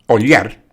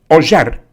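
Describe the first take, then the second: First: It is said with a standard Spanish accent. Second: It is said with an Argentine accent. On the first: "así se pronuncia si se habla bien español" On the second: "yo hablo argentino"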